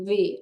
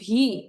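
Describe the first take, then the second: First: The letter starts with a sound between v and b. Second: The letter starts with a hard, breathy bh sound. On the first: The speaker calls it right. "ভি এর উচ্চারণটা হচ্ছে ভি এবং বি এর মাঝামাঝি" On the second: The speaker calls it wrong. "আমরা বলি ভি"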